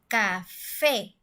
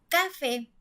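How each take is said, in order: First: The stress is on the last syllable. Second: The stress is on the first syllable. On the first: The speaker calls it right. "la última sílaba es la que se escucha mucho más fuerte" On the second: The speaker calls it wrong. "en la penúltima sílaba, nosotros diríamos"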